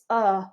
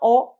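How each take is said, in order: First: The vowel is a relaxed 'uh' sound. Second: The vowel is a rounded 'oh' sound. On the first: The speaker calls it right. "No, it's uh" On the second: The speaker calls it wrong. "It's not oh"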